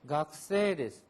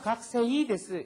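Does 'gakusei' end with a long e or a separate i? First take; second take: long e; separate i. First: The word ends with a lengthened e sound. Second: The word ends with a clear separate i. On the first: The speaker calls it right. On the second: The speaker calls it wrong.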